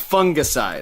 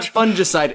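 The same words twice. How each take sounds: First: The first syllable does not sound like fun. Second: The first syllable sounds like the word fun. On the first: The speaker calls it right. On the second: The speaker calls it wrong.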